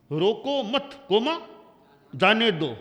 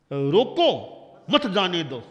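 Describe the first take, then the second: First: "रोको मत" as one loud unit, then "जाने दो"; pause after मत. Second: Loud "रोको" alone, then "मत जाने दो"; pause after रोको. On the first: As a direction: break after मत, naming the comma aloud. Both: Shown as a demonstration. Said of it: "coma कहाँ लगाना".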